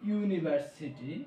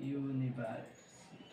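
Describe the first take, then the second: First: Said in the usual way. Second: ইউনিভার্সিটি said slowly and softly, opening on a clear yu sound; drawn-out, softer model of ইউনিভার্সিটি; slow careful pronunciation. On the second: Shown as a demonstration. Teacher models the word for students, slowly and softly. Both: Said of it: "এইখানে যখন আমরা উচ্চারণ করলাম".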